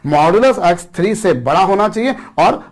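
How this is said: The word 'और' is said quickly and softly. The speaker calls it wrong. "मैं बहुत धीरे से बोल गया, बहुत जल्दी बोल गया"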